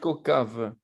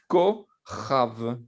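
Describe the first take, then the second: First: The middle consonant is a hard k sound. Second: The middle consonant is a raspy ch sound. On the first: The speaker calls it wrong. "on ne peut pas dire concave" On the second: The speaker calls it right. "vous allez dire kochav"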